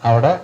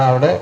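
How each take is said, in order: No difference in how they are said.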